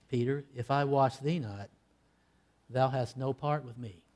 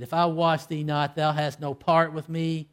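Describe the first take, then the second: First: Low, hushed and grave; quiet solemn rebuke; solemn answer. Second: Said in the usual way. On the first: Retold or imitated. Jesus answering Peter's refusal, quiet and solemn. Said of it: "answered back solemnly". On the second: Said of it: "when he said in verse eight".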